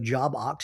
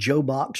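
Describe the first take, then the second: First: The second part is said as 'Ox'. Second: The first part is said as 'Joe'. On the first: "or Job Ox" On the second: "It's not Joe Box"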